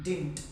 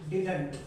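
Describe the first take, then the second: First: It is squeezed into one syllable, as 'dint'. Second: Both syllables are pronounced, as 'did-unt'. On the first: "अगर आप American English में बोलना चाहें तो कह सकते हैं डिंट।" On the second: "ये ब्रिटिश इंग्लिश का तरीका है।"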